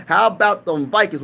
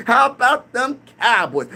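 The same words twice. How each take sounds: First: Said in the usual way. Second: Slow, higher mock Skip Bayless catchphrase; Skip Bayless impression. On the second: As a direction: lightly imitate a TV pundit's slow, drawn-out catchphrase. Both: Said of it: "Skip Bayless, I know you say".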